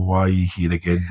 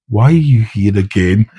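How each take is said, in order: First: Softer, quicker, under-the-breath question; quiet exasperation. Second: Slow, stretched-out exasperated question; drawn-out exasperation. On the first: Instructor eyeing the trainee's companion, quietly exasperated. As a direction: drop the volume in weary disbelief. Second take, retold to the trainee. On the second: Instructor greets trainee's second visit, slowly exasperated. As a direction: drag out each word at a repeat visitor. First take of retold repeat question. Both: Retold or imitated.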